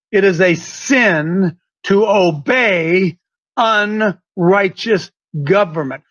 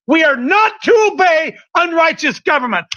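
First: Slow, low and deliberate, word by word; more slowly. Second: Said in the usual way. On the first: Shown as a demonstration. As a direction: spell out "unrighteous government" slowly for emphasis. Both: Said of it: "I'm going to say it again more slowly".

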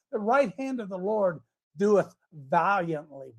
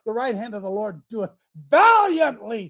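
First: Said in the usual way. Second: Louder, more emphatic reading; emphatic repeat. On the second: Shown as a demonstration. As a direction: proclaim it the second time. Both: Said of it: "Said it again".

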